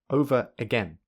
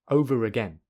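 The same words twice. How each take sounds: First: The words are said with no r between them. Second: An r sound joins the two words together. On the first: "Firstly without linking" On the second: "secondly with linking"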